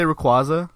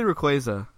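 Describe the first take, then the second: First: Rayquaza with "kwah" in the middle; alternative pronunciation. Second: Rayquaza with "kway" in the middle; preferred pronunciation. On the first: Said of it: "people say Rayquaza". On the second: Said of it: "it's pronounced Rayquaza". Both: Shown as a demonstration.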